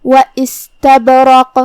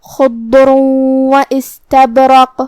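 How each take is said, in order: First: و استبرق slow, the silent ب bounced with a small echo; و استبرق with a bouncing ب before ر; qalqala on ba. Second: خضر و استبرق very slow, the tanween merged into و with a nasal hum; خضر و استبرق slowly, nasal ghunna on the joined و; idgham with ghunna. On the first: Teacher demonstrates qalqala on one word, slow with a bounce. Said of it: "ہم یہ کلمہ کو ایسے پڑھیں گے". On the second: Teacher demonstrates idgham, slow and nasal. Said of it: "ہم یہ حکم کو غنہ کے ساتھ ادا کریں گے". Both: Shown as a demonstration.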